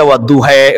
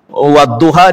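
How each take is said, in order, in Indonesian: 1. Vokal terakhirnya condong ke bunyi 'e'. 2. Vokal terakhirnya adalah bunyi 'a' yang terbuka.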